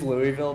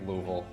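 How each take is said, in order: First: The name is said clearly, in a standard way. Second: The name is said mumbled, in a local way. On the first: "it is Louisville" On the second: "everybody from around here says it like Louisville because we all talk like we got rocks in our mouth"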